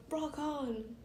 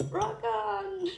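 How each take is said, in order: First: Said in the usual way. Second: High, loud exclamation; mock rocker shout. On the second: Reader acting out rock on, mock shout. Performs the phrase, then repeats it.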